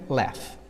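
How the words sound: The vowel is between an 'a' and an 'e'. "e do American"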